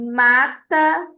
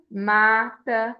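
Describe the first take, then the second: First: "mata" with the MA hit louder and a bit higher; stress on MA. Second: Said in the usual way. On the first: Shown as a demonstration. Teacher to class, showing the stressed syllable of "mata": MA-ta. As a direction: punch the first syllable of "mata", MA-ta. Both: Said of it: "Ma é a mais forte".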